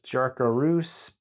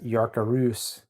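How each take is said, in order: First: The name is read the plain English way. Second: The name is said the Nordic way. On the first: "it looks like it says Jarkarus" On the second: "a Nordic person would pronounce that as Yarkarus"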